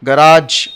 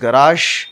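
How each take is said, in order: First: The word ends with a hard 'j' sound. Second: The word ends with a soft 'zh' sound. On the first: This is the common Indian pronunciation. "గరాజ్ అని general Indian Indian pronunciation" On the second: This is the actual pronunciation. "Actually it's గరాష్, ... ష్ ఆ sound వస్తుంది"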